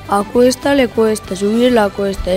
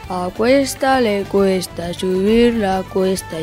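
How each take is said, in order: First: It is spoken at a normal pace. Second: It is spoken at a slow pace. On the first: "Ahora vamos con la velocidad normal" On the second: "A velocidad lenta"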